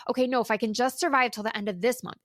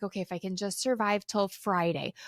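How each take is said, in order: First: Fast, pushing on to the next deadline; quick anxious inner voice; hurried self-talk. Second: Weary self-talk. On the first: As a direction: rush it like bargaining with yourself. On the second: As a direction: talk yourself through the week. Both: Retold or imitated. Imitating own coping thoughts.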